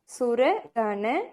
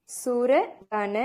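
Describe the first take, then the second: No difference in how they are said.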